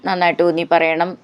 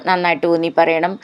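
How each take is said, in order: The two takes are said the same way.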